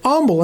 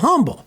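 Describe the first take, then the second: First: The word starts without an H sound. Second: The word starts with an H sound. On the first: This is how local Texans say the town's name. "Texans pronounce it Humble" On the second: This is how the spelling suggests it is said. "instead of Humble"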